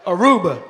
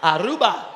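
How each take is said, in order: First: Aruba said the English way, "uh-ROO-buh"; English pronunciation. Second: Aruba with local accent, open "Ah-ROO-bah"; local pronunciation. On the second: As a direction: correct them with a crisp "Ah-ROO-bah". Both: Shown as a demonstration.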